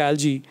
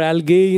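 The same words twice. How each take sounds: First: Algae is said in an American way. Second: Algae is said in a South Indian way.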